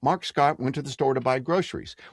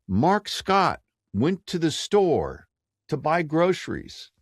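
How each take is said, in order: First: It is rushed through without any pauses. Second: It is said with pauses between phrases.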